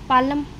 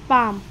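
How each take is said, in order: First: The L sound is pronounced before the M. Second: The L sound is silent before the M. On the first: The speaker calls it wrong. "Wrong pronunciation है" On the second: The speaker calls it right. "एल क्या है, silent"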